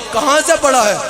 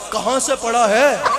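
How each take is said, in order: First: The question sounds scornful and critical. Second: The question sounds admiring and impressed.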